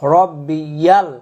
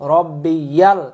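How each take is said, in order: Both takes have the same delivery.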